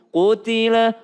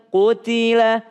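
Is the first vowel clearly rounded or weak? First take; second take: rounded; rounded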